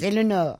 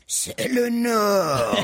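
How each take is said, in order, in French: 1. C'est dit avec la voix naturelle du locuteur. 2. C'est dit avec une voix imitée. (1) "c'est pas comme ça que vous nous le faites d'habitude" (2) "tu veux que je fasse comme lui?"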